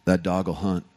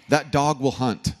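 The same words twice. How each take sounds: First: Lightly voiced Texan drawl, pitched low; a hint of a Texan saying. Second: Said in the usual way. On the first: Pastor imitating Texans with a low Texan drawl. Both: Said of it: "they'll say this phrase right here".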